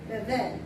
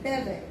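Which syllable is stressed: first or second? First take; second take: second; first. First: The stress is on the second syllable. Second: The stress is on the first syllable. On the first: The speaker calls it right. "the second one is the one that's usually emphasized" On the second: The speaker calls it wrong. "instead of"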